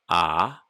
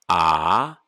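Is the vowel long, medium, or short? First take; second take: medium; long. First: The vowel is held a medium length. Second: The vowel is held long.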